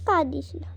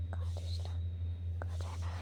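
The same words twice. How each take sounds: First: Said in the usual way. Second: কাঁদিস না breathed in a much softer whisper. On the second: Shown as a demonstration. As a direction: hush her gently, barely voiced. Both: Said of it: "repeats then drops voice".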